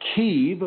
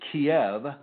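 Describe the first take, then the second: First: The name is said the Ukrainian way. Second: The name is said the American way. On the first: The speaker calls it right. "She's from the city of Kyiv" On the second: The speaker calls it wrong. "which the Americans mispronounce as Kiev"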